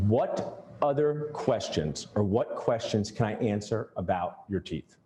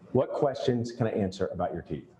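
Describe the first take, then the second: First: Slow and deliberate, each word placed; the patient hears an unhurried offer of help; slow, deliberate magic words. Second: Said in the usual way. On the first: Shown as a demonstration. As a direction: lay the question out slowly for the patient. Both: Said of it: "Say this every time".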